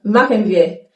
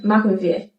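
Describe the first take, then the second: First: Machen wir, every sound of machen said in full; careful full machen wir; textbook form. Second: Machen wir said softly, the end of machen reduced; casual, quieter machen wir; spoken form. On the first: Teacher gives the textbook machen wir. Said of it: "Textbook version". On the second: Teacher shows how natives say machen wir. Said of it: "Spoken German". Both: Shown as a demonstration.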